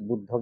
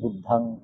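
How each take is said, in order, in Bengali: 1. শেষ স্বরধ্বনিটি একটি হ্রস্ব 'aw' ধ্বনি। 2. শেষ স্বরধ্বনিটি একটি খোলা 'ah' ধ্বনি। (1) "বুদ্ধং এর জায়গায়" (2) "অ থেকে আ"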